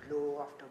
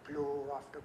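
The two takes are said the same way.

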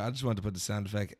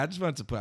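First: Said in the usual way. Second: Mimicking line.

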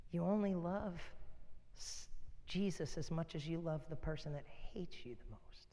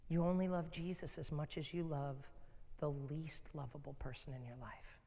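First: Softer whispered repeat of the point; hushed whisper. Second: Said in the usual way. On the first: Real, not acted. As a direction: whisper it intimately to drive it home. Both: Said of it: "repeated as hushed whisper".

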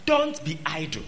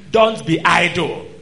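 First: Said in the usual way. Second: "Don't be idle" louder and slowed, "Don't" hit; loud slow warning. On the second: Real, not acted. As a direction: slam the warning home. Warning repeated over music.

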